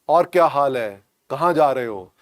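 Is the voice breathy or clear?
clear. The voice is clear and fully voiced. The voice is normal. "voice will not be like this"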